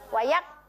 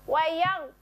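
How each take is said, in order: First: The gh is light, back of tongue lowered. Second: The gh is heavy, back of tongue raised. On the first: The speaker calls it wrong. "Tidak boleh wayak" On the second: The speaker calls it right. "terasa pangkal lidahnya itu terangkat sampai ke langit-langit"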